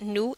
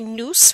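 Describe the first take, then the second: First: The final S sound is silent. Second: The final S sound is pronounced. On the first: The speaker calls it right. "we keep that nous" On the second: The speaker calls it wrong. "We're not going to say nous"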